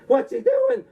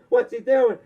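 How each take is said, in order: First: What's he doing? in a much higher squeak; panicked official. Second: What's he doing? only lightly raised; mild panicked official. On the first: NWA official panicking as the belt is thrown down, high squeak. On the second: NWA official panicking as the belt is thrown down, lightly raised. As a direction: repeat What's he doing? nearer the normal voice. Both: Retold or imitated. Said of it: "The guy in the N W A is like".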